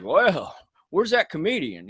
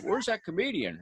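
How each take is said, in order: First: [name] voice. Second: A hint of a mocking [name], high and soft. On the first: Retold or imitated. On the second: Impersonator mocks the opener from the stage, lightly voiced Cash. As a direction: tease the comic like a country star. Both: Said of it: "in [name] voice".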